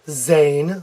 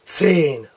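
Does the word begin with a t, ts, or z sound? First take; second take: z; ts. First: The word begins with a buzzing z sound. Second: The word begins with a hissing ts sound. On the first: The speaker calls it wrong. "some Americans will pronounce it Zane. That's wrong" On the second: The speaker calls it right. "You need to have a T S sound. Zane. Zane. That's correct"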